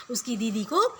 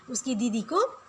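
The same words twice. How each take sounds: The two takes are said the same way.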